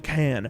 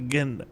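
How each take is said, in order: First: The word begins with a crisp k sound. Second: The word begins with a throaty g sound. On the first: "I don't say can" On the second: "My C's get lost in my throat"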